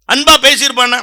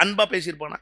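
First: Said in the usual way. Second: Softer, half-swallowed question; quiet throwaway doubt; muttered aside. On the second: Shown as a demonstration. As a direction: say it under your breath to yourself.

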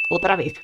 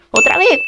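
First: Lower, softer falling statement; resigned confirmation. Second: High, rising incredulous question; surprised question. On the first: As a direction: let it drop in resignation. Answers own question flatly. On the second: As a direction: ask it with disbelief, pitched up. Questions, then repeats it resignedly. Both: Real, not acted.

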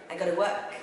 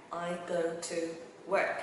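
First: Said in the usual way. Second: "I go to work" slowly, word by word; slow teaching model of "I go to work"; word-by-word demo. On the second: Shown as a demonstration. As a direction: separate each word, pausing before "work".

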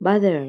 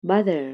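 The two takes are said the same way.

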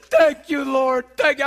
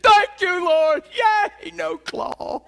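First: Loud, elated praise to God; loud happy praise; joyful thanks. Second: Much higher, loud cheering praise; high, loud whooping celebration; jubilant shout. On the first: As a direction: burst out thanking the Lord. Thanking God after reprieve. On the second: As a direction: shout it like you just escaped surgery. Celebrating avoiding surgery. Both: Retold or imitated.

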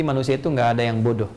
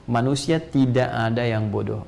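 First: Said in the usual way. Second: "manusia tidak ada yang bodoh" said slowly, weight on "tidak"; slow down and lean on "tidak"; emphatic repeat. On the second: Real, not acted. (penekanan pelan pada "tidak") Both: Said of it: "Sekali lagi".

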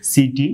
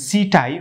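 First: "সিটি" ending in an ee sound; y said as short i in "সিটি"; correct city pronunciation. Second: "সিটাই" ending in "tai"; y read as "ai" in "সিটাই"; mispronounced city. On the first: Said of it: "সঠিক উচ্চারণ করতে হবে". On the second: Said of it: "উচ্চারণ হবে না". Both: Shown as a demonstration.

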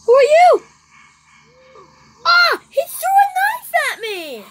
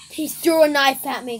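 First: Very high, loud shocked scream; startled scream. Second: Said in the usual way. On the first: Real, not acted. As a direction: shriek in sudden fright. Attacked by knife thrower.

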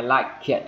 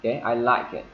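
First: "I like it" with a hard, exploded K in "like"; wrong-way demo, K in "like" fully released; full K sound. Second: "I like it" with a light, linked K; "like it" run together, K greatly reduced. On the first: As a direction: punch out the K of "like" before "it". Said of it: "Chứ không phải". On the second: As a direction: soften the end of "like" into "it". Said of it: "giảm âm đi rất là nhiều". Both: Shown as a demonstration.

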